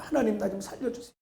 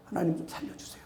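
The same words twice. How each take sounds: First: Soft plea. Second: Breathy whispered prayer; barely voiced whisper begging for help; whispered plea. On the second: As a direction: whisper it to God, pleading. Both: Shown as a demonstration. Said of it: "목사도 그러는데 저도".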